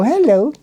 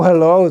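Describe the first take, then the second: First: Bright, lilting hello said high; cheerful hello. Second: Said in the usual way. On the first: Retold or imitated. Ladies on the street greeting passers-by, a high cheerful "Hello". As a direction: sing out "Hello" pitched up and inviting. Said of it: "they go". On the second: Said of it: "If I go".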